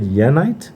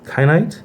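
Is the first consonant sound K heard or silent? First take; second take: silent; heard. First: The word begins without a K sound. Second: The word begins with a K sound.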